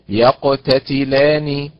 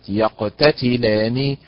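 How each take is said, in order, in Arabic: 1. يقع النبر على المقطع 'la'. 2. يقع النبر على مقطع غير 'la'. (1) "النبر أيضا على حركة اللام" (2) "وليست"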